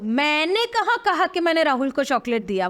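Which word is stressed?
मैंने. The stress is on मैंने.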